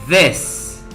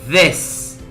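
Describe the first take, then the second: The two takes are said the same way.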